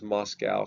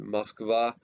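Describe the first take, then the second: First: The city name is said the American way. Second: The city name is said the Russian way. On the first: "Most Americans refer to it as Moscow" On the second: "typically Russians call it Moskva"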